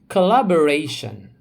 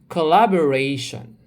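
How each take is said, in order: The two takes are said the same way.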